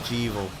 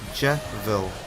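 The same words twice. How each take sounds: First: The name does not rhyme with devil. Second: The name rhymes with the word devil. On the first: The speaker calls it wrong. "so not Jevil" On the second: The speaker calls it right. "Keo reckons it's pronounced Jevil"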